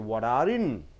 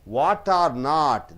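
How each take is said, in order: First: The three words are blended into one sound. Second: The three words are said separately. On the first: "So you have to mix it and say what are in" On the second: "These are lesser stressed words"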